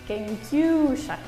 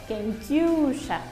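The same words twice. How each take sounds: The two takes are said the same way.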